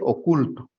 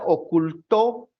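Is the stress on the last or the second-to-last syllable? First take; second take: second-to-last; last. First: The stress is on the second-to-last syllable. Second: The stress is on the last syllable. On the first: "por lo tanto es grave" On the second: "ahí sería aguda"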